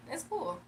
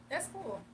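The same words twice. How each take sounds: The two takes are said the same way.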